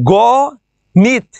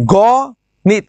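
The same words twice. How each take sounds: First: The first vowel is an open 'aw' sound. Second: The first vowel is an open 'aw' sound.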